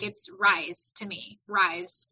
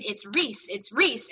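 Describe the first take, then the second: First: "rise" with a long I and buzzing Z; "rise" pronunciation. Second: "Reese" with a long EE and S ending; "Reese" pronunciation. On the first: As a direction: say "rise", rhyming with eyes. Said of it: "my brain would not do it". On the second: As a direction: drill it in: "Reese", like fleece. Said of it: "tried really hard to get my brain". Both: Shown as a demonstration.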